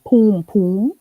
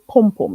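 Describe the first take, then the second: First: The vowel is long, as in 'room'. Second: The vowel is short, as in 'cup'. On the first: The speaker calls it wrong. "not poom poom, like I hear some people say it" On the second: The speaker calls it right. "It's like P U M P U M, pronounced that way"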